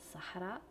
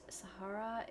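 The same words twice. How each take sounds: First: The name has an Arabic-style pronunciation. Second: The name has an English-style pronunciation. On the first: The speaker calls it right. "So her actual name is Sahara" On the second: The speaker calls it wrong. "I don't know why I'm pronouncing it like this"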